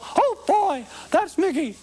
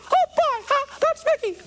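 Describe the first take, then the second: First: The Mickey voice is pitched lower. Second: The Mickey voice is pitched too high.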